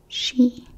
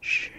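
First: It sounds like the English word she. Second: It does not sound like the English word she. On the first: The speaker calls it wrong. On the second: The speaker calls it right.

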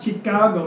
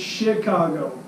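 First: The word begins with a ch sound. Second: The word begins with an sh sound. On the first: The speaker calls it wrong. "It's not Chicago" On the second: The speaker calls it right. "it's Chicago. It's not spelled with a S-H"

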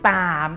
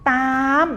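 First: The word is said on a rising tone. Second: The word is said on a high tone. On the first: "ตามเป็นเสียงจัตวา" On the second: "ตามเป็นเสียงตรี"

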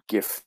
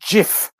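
First: The word begins with a hard G sound, like 'gift'. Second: The word begins with a soft G sound, like 'jif'. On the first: This is how most people commonly say it. The speaker calls it wrong. "but we all, of course, all call it GIF" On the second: This is how the inventor says it should be said. The speaker calls it right. "It's actually supposed to be pronounced GIF, you know, with a soft G"

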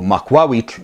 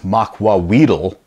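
First: The word ends without a 'tl' sound. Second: The word ends with a 'tl' sound. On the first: The speaker calls it right. "so makwawit" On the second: The speaker calls it wrong. "they mispronounced as makwawitl, which, you know, I guess kind of close, but not really"

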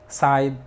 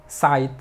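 No difference in how they are said.

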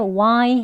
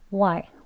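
First: The word is drawn out long. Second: The word is said quickly and short. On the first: The speaker calls it wrong. "조금 이제 길게 why 하진 않고요" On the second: The speaker calls it right. "why 조금 짧게 해주시고요"

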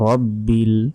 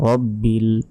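Both takes have the same delivery.

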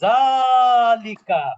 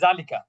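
First: The first vowel is long, with lengthening. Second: The first vowel is short, without lengthening. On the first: The speaker calls it right. "এটা হবে জালিকা, কি হবে মাদ হবে" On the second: The speaker calls it wrong. "যেহেতু জালিকার পরে কোনো মাদের চিহ্ন নাই, ... এই জন্য আমরা অনেকে বলি জালিকা"

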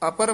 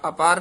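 First: The second vowel is short. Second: The second vowel is long. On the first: The speaker calls it right. "ਅਪਰ ਹੀ ਉਚਾਰਨ ਕਰਨਾ" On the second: The speaker calls it wrong. "ਅਪਾਰ ਨਹੀਂ ਕਹਿਣਾ"

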